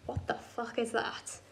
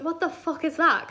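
First: Much softer, slow mock disbelief; stunned hush. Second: Slow, fully voiced mock disbelief; insistent question. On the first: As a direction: say it slowly under your breath. Retells man's stunned first reaction. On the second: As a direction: spell it out, wanting an answer. Retells the question said again.

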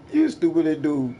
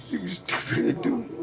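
First: Said in the usual way. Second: Slow, higher, dragged-out mocking voice; mocking drawl. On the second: Taunting an opponent in an online game, slow mocking higher voice. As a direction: stretch it out like you're talking to a fool.

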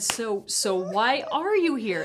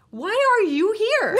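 First: Said in the usual way. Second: High, loud and laughing through the words; laughing question. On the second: Retold or imitated. Retelling her question to the reporter, laughing. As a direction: ask it while cracking up.

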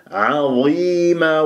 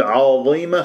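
First: Slow recited عظيمة with thin ayn and long i; light ayn. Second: Wrong عظيمة with a darkened first a; heavy ayn error. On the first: Teacher correcting the error, light ayn in عظيمة. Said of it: "العين دوما مرققة". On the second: Teacher showing what to avoid, heavy ayn in عظيمة. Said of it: "خطأ". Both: Shown as a demonstration.

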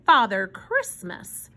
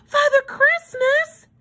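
First: Said in the usual way. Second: Put-on very high, slow, louder child's cry of wonder; gasp, then exclaim it high in amazement; astonished exclamation. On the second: A narrator's reading. Susie astonished at meeting him, high awed exclamation. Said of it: "she finally exclaimed in a hushed voice".

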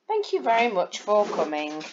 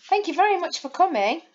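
First: Said in the usual way. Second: Much higher and fast, very rising; excited. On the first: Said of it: "without an exclamation". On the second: Shown as a demonstration. Teacher reads with an exclamation mark, excited and fast. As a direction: gush your thanks. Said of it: "with an exclamation mark".

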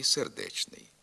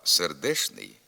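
First: Сердечний with a clear ч; чн word. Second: Сердешний with ш; шн word. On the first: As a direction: say сердечний with ч, meaning heartfelt. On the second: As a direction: say сердешний with ш, meaning poor. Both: Shown as a demonstration. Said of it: "Різняться значенням слова".

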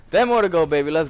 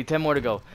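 First: Louder, higher hyped call; excited shout. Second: Said in the usual way. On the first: Real, not acted. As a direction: shout it like a streak is on. Hyped repeat of the count.

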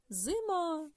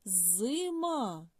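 First: Said in the usual way. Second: Зима with a long, held З at the start; first sound stretched. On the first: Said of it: "Відгадали?". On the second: Shown as a demonstration. Teacher asking for the first sound, З stretched. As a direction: draw out the З in Зима. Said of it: "Який перший звук в слові".

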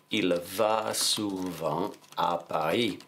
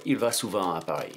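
First: Very slow, drawn-out French, word by word; slow dictation. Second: Said in the usual way. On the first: Shown as a demonstration. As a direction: dictate it slowly as if writing along. Dictating the sentence while writing it.

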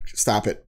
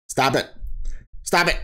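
First: Said in the usual way. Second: Insistent stop. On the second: Real, not acted. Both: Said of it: "That's me".

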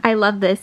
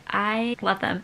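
First: Louder, gushing giddy burst. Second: Said in the usual way. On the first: Real, not acted. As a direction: squeal it out with real delight. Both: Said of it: "gets me so giddy".

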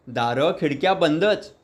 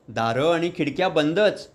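First: "बंदच" drawn out slowly with a rising end; patient, deliberate retelling of the same dull fact; slow, stressed repeat. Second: Said in the usual way. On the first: A narrator's reading. Joshi master repeats to eager listeners, slow and stressed.

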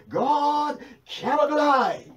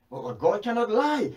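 First: Higher, louder and drawn out, every word hammered; God cannot lie, proclaimed at full force; slow forceful shout. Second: Said in the usual way. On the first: Acted. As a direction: thunder it from the pulpit, slowly. Preacher repeats it shouting slowly.

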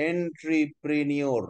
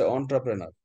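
First: "এন্ট্রিপ্রেনিয়র" sounded out syllable by syllable, en-tri-pre-ni-or; literal pronunciation. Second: "এন্টারপ্রেনার" opening with an "on" sound, as on-tra-pre-nar; correct pronunciation. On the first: Teacher shows what a literal reading gives, "এন্ট্রিপ্রেনিয়র" drawn out as en-tri-pre-ni-or. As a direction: read "এন্ট্রিপ্রেনিয়র" exactly as spelt, starting with "en". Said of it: "আক্ষরিকভাবে উচ্চারণ করলে হয়". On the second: Teacher shows students how the word is pronounced, "এন্টারপ্রেনার" said on-tra-pre-nar. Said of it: "উচ্চারণটা হচ্ছে". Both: Shown as a demonstration.

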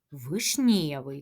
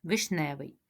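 First: Вишнєвий said with a soft "nye" sound in the middle; soft vowel sound. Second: Вишневий said with a hard "ne" sound in the middle; standard pronunciation. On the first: Teacher echoing the children's Вишнєвий with the soft "є". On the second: Teacher quietly correcting the children to Вишневий with a plain "е". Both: Shown as a demonstration. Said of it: "так?".

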